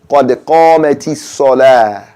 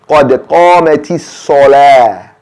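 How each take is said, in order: The two takes are said the same way.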